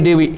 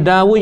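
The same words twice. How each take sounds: First: "Dewi" as "de-wi", for David; Westerners' pronunciation. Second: "Dawud" as "da-wu", final D dropped; our pronunciation. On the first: Teacher imitating Westerners' name for the prophet, "Dewi" as "de-wi". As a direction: say "Dewi" as de-WI, pitched up. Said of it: "dia panggil Dewi". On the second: Teacher comparing prophets' names, "Dawud" as "da-wu". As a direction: say "Dawud" as da-WU, pitched up. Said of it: "Kita panggil". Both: Shown as a demonstration.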